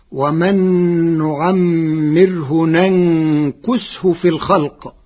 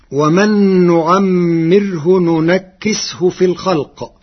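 First: ننكسه as "nankus-hu"; slow recitation, humming the nūn in ننكسه before "kus"; light kāf with ḍamma. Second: ننكسه as "nunakkis-hu"; slow recitation, ننكسه with doubled kāf and i. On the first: Teacher shows Warsh's resulting reading, ننكسه as "nankus-hu". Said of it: "بفتح النون الأولى وإسكان الثانية وضم الكاف". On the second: Teacher quotes the verse before Warsh's reading, ننكسه as "nunakkis-hu". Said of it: "كلمة ننكسه". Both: Shown as a demonstration.

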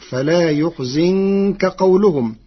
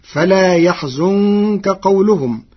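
First: يحزنك as "yuḥzinka"; ḍamma then kasra. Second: يحزنك as "yaḥzunka"; yā with fatḥa. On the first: Teacher shows Warsh's resulting reading, يحزنك as "yuḥzinka". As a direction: slowly recite يحزنك with u on yā, i on zāy. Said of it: "بضم الياء وكسر الزاي". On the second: Teacher quotes the verse before Warsh's reading, يحزنك as "yaḥzunka". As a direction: recite higher, يحزنك with a then u. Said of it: "كلمة يحزنك بضم الياء". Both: Shown as a demonstration.

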